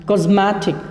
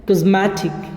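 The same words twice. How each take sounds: Both takes have the same delivery.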